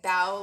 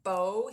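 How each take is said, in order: First: The vowel is an 'ow' sound. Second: The vowel is a long 'oh' sound. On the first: Bending forward before a king. "like you're going to bow like to the king" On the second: A ribbon tied in hair. "like a bow that goes in your hair"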